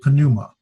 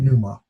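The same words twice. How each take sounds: First: The word starts with an audible P sound. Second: The word starts without a P sound. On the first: "some people pronounce it and say pneuma" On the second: "I keep it silent and I just say pneuma"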